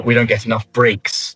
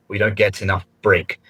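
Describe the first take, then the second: First: "breaks" ending in a clear S sound; "breaks" with its final S heard; corrected form with S. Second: "break" said without the final S sound; the mistaken "break", S left off; wrong form, no S. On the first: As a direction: give the fix, sounding the S on "breaks". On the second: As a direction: quote the error plainly, "break" with no S. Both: Shown as a demonstration. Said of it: "if you had the S on the end".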